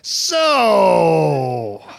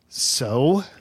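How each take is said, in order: First: It sounds disgusted and repelled. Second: It sounds expectant, as if awaiting more. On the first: Something gross has just happened to the speaker. "Say it like a baby just threw up on you" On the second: The speaker is waiting for the other person to finish. "say it like you're waiting for me to finish a sentence"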